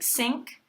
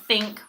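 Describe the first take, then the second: First: The word begins with an s sound. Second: The word begins with a th sound.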